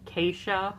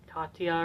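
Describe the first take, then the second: First: The middle consonant is a 'sh' sound. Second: The middle consonant is a 't' sound. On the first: The speaker calls it wrong. "for longest time, I was pronouncing her name Keisha" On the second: The speaker calls it right. "but it's actually"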